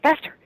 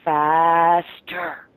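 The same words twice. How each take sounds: First: The word is said quickly and tightly. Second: The word is drawn out slowly.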